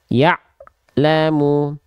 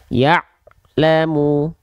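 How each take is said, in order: No difference in how they are said.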